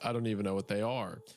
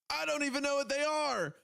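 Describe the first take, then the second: First: It is said in a flat, plain way. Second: It is said with exclamatory excitement.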